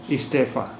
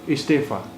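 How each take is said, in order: The two takes are said the same way.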